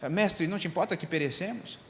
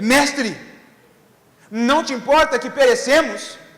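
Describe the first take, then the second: First: It is said calmly, like plain reading. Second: It is shouted in a hysterical, doubting way.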